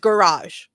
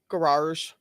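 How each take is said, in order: First: The word has only one R sound. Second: The word has an extra R sound. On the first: The speaker calls it right. "It's garage, G A R A G E. There's only one R in the word" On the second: The speaker calls it wrong. "There's only one R in garage"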